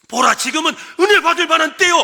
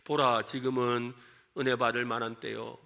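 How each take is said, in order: First: It is read fast, urgently and breathlessly. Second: It is read slowly and calmly. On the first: The speaker calls it right. "굉장히 숨이 가쁠 정도로 긴박하게 말을 하고 있어요" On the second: The speaker calls it wrong. "그냥 읽을 때는 제가 천천히 읽었어요"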